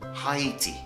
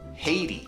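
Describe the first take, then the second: First: It is said with a British pronunciation. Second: It is said with a North American pronunciation. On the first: "I come from the U K, so I pronounce it Haiti" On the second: "In North America, it's pronounced Haiti"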